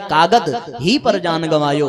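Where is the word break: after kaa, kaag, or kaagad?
kaagad. The break comes after "kaagad".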